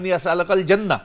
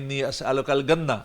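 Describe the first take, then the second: First: The last word begins with a J sound. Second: The last word begins with a hard G sound. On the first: "वो कह रहा था" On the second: "जीम की जगह पे गाफ बोलते हैं"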